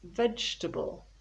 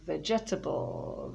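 First: The word is said with three syllables. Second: The word is said with four syllables. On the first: The speaker calls it right. "it is three syllables" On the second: The speaker calls it wrong. "People often say vegetable, vegetable, vegetable, but no"

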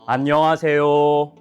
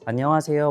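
First: The vowels are wide, open and carry further. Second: It is said in a plain everyday speaking voice. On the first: "모음을 넓게" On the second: "우리가 말하면"

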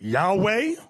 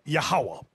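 First: The name has two syllables, no middle syllable. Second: The name has three syllables, middle one 'ha'. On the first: This is how some people say it. "you have some people pronounce it Yahweh" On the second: This is the form the speaker's group was taught. "We were taught Yahawah"

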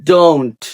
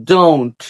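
No difference in how they are said.

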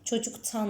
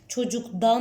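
First: The suffix begins with a voiceless t sound. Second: The suffix begins with a voiced d sound. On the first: The speaker calls it right. "Çocuktan diyoruz" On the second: The speaker calls it wrong. "Çocuktan demek çok zor orada"

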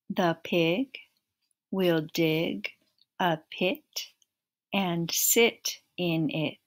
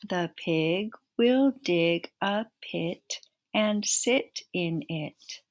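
First: It is said at a slow, steady pace. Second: It is said a little faster.

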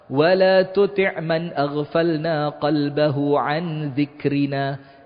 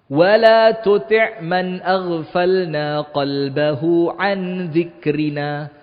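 First: The verse is recited at a fast pace. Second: The verse is recited at a slow pace. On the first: The speaker calls it wrong. "saya kecepatan" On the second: The speaker calls it right.

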